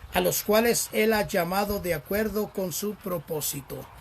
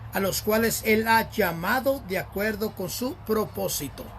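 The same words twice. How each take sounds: Both takes have the same delivery.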